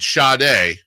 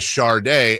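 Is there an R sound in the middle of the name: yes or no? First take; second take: no; yes. First: There is no R sound in the middle. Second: An R sound is added in the middle. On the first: This is the form the speaker accepts. The speaker calls it right. "So I give it [name]" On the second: This is the popular form that came from a misprint. The speaker calls it wrong. "popularly mispronounced as Shardae"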